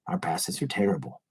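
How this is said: It sounds calm and matter-of-fact.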